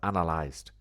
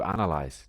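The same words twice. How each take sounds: First: The word ends with a clear T sound. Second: The word ends without any T sound. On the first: The action is finished. The speaker calls it right. "No, no, I said analyzed" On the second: The action is done habitually. The speaker calls it wrong. "But you said you analyzed"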